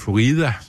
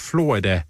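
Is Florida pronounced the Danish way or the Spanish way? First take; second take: Spanish; Danish. First: It is said with a Spanish pronunciation. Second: It is said with a Danish pronunciation.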